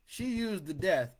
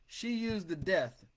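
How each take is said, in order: Both takes have the same delivery.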